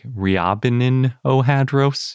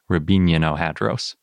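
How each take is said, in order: First: The name is read closely following its spelling. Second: The name is said with a Russian pronunciation. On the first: This is how it looks when written. "it's spelled kind of like Riabinin Ohadros, if you see it written" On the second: This is how Russians say it. "I looked up the Russian pronunciation, and I'm pretty sure it's more like"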